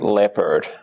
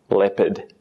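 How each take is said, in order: First: American accent, with the R sound pronounced. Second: British accent, with no R sound heard. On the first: "But American" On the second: "the British English would be more like leopard. You don't really hear the R"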